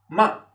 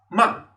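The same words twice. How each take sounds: The two takes are said the same way.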